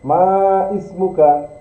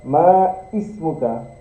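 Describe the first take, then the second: First: The two words are separate, with the 'i' sounded. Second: The two words are separate, with the 'i' sounded.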